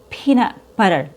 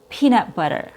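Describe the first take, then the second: First: The E vowel is long and the T flapped. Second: The same.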